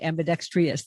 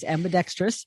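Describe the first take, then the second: First: The word has an extra 'eye' sound inside. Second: The word has no extra 'eye' sound inside. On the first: The speaker calls it wrong. "I usually say that wrong. I usually say ambidextrous" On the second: The speaker calls it right. "There's no I. It's ambidextrous"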